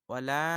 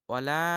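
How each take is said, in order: No difference in how they are said.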